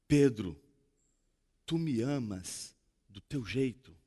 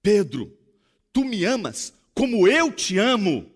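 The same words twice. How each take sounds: First: Softer and slower, tender and understated; Jesus asking softly, accepting Peter's love; gentle question. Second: Earnest question. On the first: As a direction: ask it gently, almost a hush. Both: Acted. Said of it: "Jesus olha pra Pedro e diz assim".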